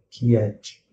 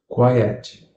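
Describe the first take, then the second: First: The word is said with a Portuguese-style pronunciation. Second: The word is said with an English pronunciation. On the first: The speaker calls it wrong. "o que seria na imaginação daquele que fala português" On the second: The speaker calls it right. "é a pronúncia correta"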